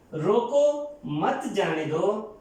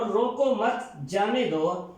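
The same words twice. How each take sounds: First: Slow, clear pause after روکو, then مت جانے دو; comma after روکو. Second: Slow, روکو مت together, pause, then جانے دو; comma after مت. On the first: Teacher shows a comma placed after روکو with a deliberate pause. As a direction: set روکو apart, keep مت with جانے دو. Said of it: "ہم نے لگایا روکو کے بعد". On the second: Teacher shows the comma moved after مت with a deliberate pause. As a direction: join مت to روکو and break before جانے دو. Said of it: "یہی علامت روکو مت کے بعد". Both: Shown as a demonstration.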